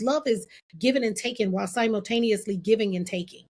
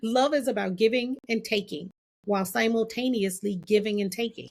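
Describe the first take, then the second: First: It is said at a normal pace. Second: It is said slowly and deliberately.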